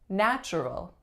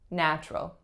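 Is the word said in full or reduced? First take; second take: full; reduced. First: Every syllable is pronounced in full. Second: A syllable is reduced or dropped. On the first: The speaker calls it wrong. "looks like it should be natural" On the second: The speaker calls it right. "people tend to say natural"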